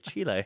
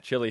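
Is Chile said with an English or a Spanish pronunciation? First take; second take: Spanish; English. First: It is said with a Spanish pronunciation. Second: It is said with an English pronunciation. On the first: This is the way locals in that country say it. The speaker calls it right. "He'll say Chile" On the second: This is the usual way at home. The speaker calls it wrong. "he will never say Chile"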